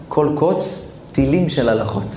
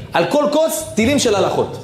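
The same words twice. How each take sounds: First: Thoughtful echo of the climax; reflective. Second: High, fervent preaching burst; soaring preacher's exclamation; excited climax. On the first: Same phrase repeated reflectively. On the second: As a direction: lift it up with wonder. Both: Acted.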